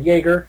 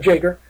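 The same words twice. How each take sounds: First: It is pronounced the German way. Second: It is pronounced the plain English way.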